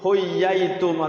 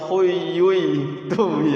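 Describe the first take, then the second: First: The doubled y is followed by an a vowel. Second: The doubled y is followed by a u vowel. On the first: "ya-nya fathah ... ya nggak bisa" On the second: "atau doma ... ya nggak bisa"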